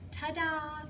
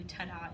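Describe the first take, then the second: First: Bunny ta-da. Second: Soft ta-da. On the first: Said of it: "the little bunny's going". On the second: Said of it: "So we do". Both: Shown as a demonstration.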